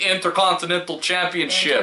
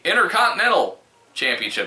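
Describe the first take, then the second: First: Every t sound in Intercontinental is pronounced. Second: Some t sounds in Intercontinental are dropped. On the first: The speaker calls it right. "There are three T's. You have to pronounce them all" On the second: The speaker calls it wrong. "we don't say Intercontinental Championship"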